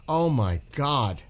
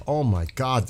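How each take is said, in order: First: Slow, choked-up awe; emotional. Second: Said in the usual way. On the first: Real, not acted. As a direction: overcome with feeling, drawn out. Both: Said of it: "you're making me getting emotional now".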